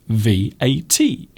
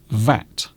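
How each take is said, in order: First: Each letter is said separately, one by one. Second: It is said as one word rhyming with cat. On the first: It is treated as an initialism. "we pronounce each letter separately" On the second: It is treated as an acronym. "we pronounce it as one word, V A T, which rhymes with cat"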